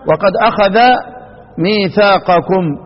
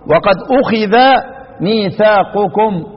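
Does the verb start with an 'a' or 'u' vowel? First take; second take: a; u. First: The verb sounds akhadha, with a vowels throughout. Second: The verb sounds ukhidha, with u then i. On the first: The verb is active, with God as the doer. "ضد الضم الفتح، وضد الكسر الفتح" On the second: The verb is passive, with no named doer. "أضم إيه؟ الهمزة خلاص، واكسر الخاء"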